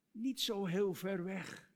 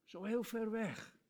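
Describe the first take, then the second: First: "niet" leaned on, slow; slow, correcting "niet" with weight; stress on niet. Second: Said in the usual way. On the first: Shown as a demonstration.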